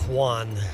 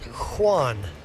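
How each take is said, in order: First: The name begins with a hard K sound. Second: The name begins with a breathy H sound. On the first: The speaker calls it wrong. "My name does not start with the sound of Q" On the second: The speaker calls it right. "starts with the sound of H"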